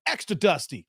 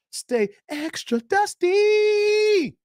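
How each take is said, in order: First: Said in the usual way. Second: Drawn-out taunt. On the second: Acted. To the haters: a slow, high, teasing taunt. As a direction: stretch it out high and slow, mocking.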